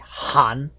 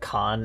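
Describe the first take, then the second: First: It is said with a Mongolian-style pronunciation. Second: It is said with an English-style pronunciation. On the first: The speaker calls it right. "in Mongolic it would be" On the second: The speaker calls it wrong. "in the very uh, anglified way"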